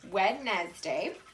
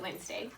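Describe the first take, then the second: First: Every letter is sounded, three syllables. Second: The middle d is silent, two syllables. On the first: This follows the spelling of the word. "Sounds funny, but that's how you spell it" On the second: This is the normal everyday pronunciation. "We really pronounce it Wednesday"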